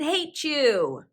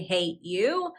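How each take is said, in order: First: The t and y merge into ch. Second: The t and y are said separately. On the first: The speaker calls it right. "I said hate you ... so it became hate you" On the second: The speaker calls it wrong. "I did not say hate you"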